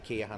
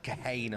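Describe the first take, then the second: First: The name is said in an English way. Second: The name is said in an Irish way.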